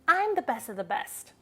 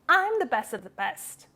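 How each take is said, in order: Both takes have the same delivery.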